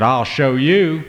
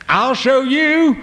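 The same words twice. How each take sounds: First: Slow, sulky defiant threat; angry boy pushed too far; mad. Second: Very high, loud and slow defiant cry; boy shouting it again at his parents; mad, repeated. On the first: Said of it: "got real mad". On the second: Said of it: "so he repeated it". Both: Acted.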